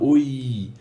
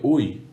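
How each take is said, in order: First: The final vowel is held and drawn out. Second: The word is repeated in separate, fading bursts. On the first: The sound continues as reverberation. "a gente tem um prolongamento desse i final" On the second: The sound returns as a separate echo. "no eco ele faria oi, oi, oi"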